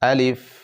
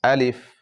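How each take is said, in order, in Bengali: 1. শব্দটি তাড়াতাড়ি ও ছোট করে বলা হয়। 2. শব্দটি তাড়াতাড়ি ও ছোট করে বলা হয়।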